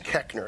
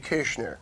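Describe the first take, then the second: First: The name is said the anglicized way. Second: The name is said the German way. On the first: This is how the name is actually used. "the correct mispronunciation is Keckner" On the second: This is how the name would originally be said. "It's a German name. It should be Kirchner"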